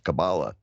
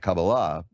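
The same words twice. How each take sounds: First: The word gets its popular, casual pronunciation. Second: The word gets its traditional religious pronunciation. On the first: It is the amateur's way of naming it. "the more uh, dilettante version is Kabbalah" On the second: It is the devout practitioner's way of naming it. "which is the uh, more religious version"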